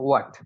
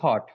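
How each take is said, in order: First: The word starts with a w sound. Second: The word starts with an h sound. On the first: The speaker calls it right. "এটার উচ্চারণ হচ্ছে ওয়াট" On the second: The speaker calls it wrong. "আমরা বলে থাকি হট, হ দিয়ে উচ্চারণ করি, এটা হট না"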